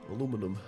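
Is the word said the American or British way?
American. It is said the American way, four syllables.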